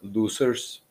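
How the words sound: It is said in a put-on German villain accent.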